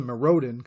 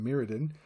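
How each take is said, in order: First: Mirrodin said his own, cooler-sounding way; own pronunciation. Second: Said in the usual way. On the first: Shown as a demonstration. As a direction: give Mirrodin a personal, alternative pronunciation. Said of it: "that sounds way fucking cooler". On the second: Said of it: "Well, I call it".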